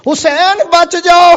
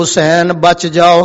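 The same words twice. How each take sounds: First: High-pitched urgent cry; acted warning call from afar. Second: Said in the usual way. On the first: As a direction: call it out far above your speaking pitch. Repeats the warning, calling out.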